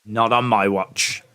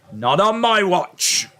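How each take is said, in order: First: Said in the usual way. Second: Slow, higher hammed-up declaration; mock heroic vow. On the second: Shown as a demonstration. Vowing to the chat to protect it, hammed-up. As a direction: proclaim it like a mock hero.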